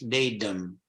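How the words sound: It is said with an American pronunciation.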